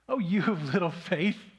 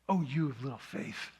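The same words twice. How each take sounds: First: It sounds warm and smiling. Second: It sounds stern and scolding. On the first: The speaker is proud and affectionately teasing. "he said it with a grin from ear to ear" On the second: The speaker is rebuking the listener. "it was a scolding"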